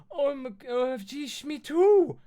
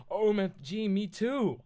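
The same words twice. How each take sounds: First: Very high, loud excited shriek; piercing, thrilled squeal. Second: High, loud gushing delight; delighted and higher-pitched; happy reply. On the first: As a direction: shriek it like an overexcited fan. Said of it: "I shrieked". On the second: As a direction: squeal it happily, like a thrilled fan. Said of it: "I replied happily". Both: Acted.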